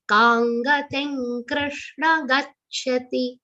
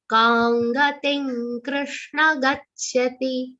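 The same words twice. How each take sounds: First: Kangating with nga sounds, slowly; slow chant with nga in Kangating; anuswar as nga. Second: Kangating with nga sounds; slow chant with nga in Kangating; anuswar as nga. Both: Shown as a demonstration. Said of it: "pronounced like nga".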